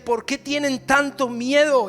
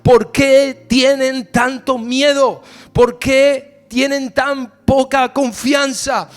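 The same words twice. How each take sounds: First: "¿Por qué tienen tanto miedo?" higher and slow at normal volume; first, slow reading. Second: "¿por qué tienen tanto miedo?" loud, higher, very slow, punching "qué"; louder repeat. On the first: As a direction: lay the question out slowly, unforced. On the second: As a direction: thunder the question back at them. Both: Shown as a demonstration. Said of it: "Escuchen esto".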